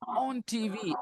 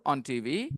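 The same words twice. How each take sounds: First: The phrase 'on TV' is strongly stressed. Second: The phrase 'on TV' is said without stress. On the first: The speaker calls it wrong. "ऑन TV ऐसे करके बोलने लगे, ऐसे नहीं था वो।" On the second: The speaker calls it right. "आपको ऑन TV पे जोर नहीं डालना था"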